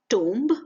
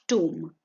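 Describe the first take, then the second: First: The final b sound is pronounced. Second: The final b sound is silent. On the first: The speaker calls it wrong. "It is not tomb" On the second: The speaker calls it right. "The B in the end is silent"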